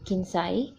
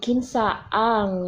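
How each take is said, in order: First: The two words merge into one short contracted word. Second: The two words are said separately in full. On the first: This is the everyday shortcut form. "So we usually say kinsay" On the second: This is the full underlying form. "but it's actually kinsa ang"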